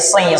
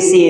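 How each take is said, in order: First: The s sound is heavy and resonant. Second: The s sound is light and thin. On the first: The speaker calls it right. "tapi sir, ... Agak menggema suaranya karena dia punya sifat idbaq, berat" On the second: The speaker calls it wrong. "Bukan nasir, sir, si, si, si"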